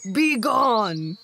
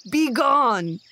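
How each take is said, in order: First: Loud angry snarl; the bear snarling at the thrown-out family. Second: Loud furious bark of a bear; a bear shouting a loud angry dismissal. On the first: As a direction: drive them off with a snarl. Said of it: "he snarled". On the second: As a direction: throw the beggar out with one word. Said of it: "the angry bear". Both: Acted.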